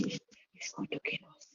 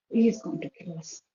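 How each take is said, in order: First: Put-on a child's terrified whisper, barely breathed; imitating a frightened little girl, whispered. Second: Said in the usual way. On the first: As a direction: whisper it like you're scared he'll hear. Frightened child repeating husband's threat.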